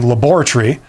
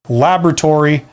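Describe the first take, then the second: First: It is said with a British pronunciation. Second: It is said with an American pronunciation.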